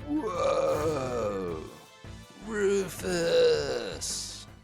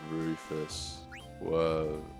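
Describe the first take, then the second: First: It is said loudly with high energy. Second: It is said flat and sleepy, low energy.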